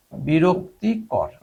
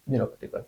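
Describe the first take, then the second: First: বিরক্তিকর stretched out slowly and clearly; slow dictation. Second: Said in the usual way. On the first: Shown as a demonstration. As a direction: say বিরক্তিকর slowly so students can write it. (ধীরে স্পষ্ট করে বলা) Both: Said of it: "annoying হচ্ছে বিরক্তিকর".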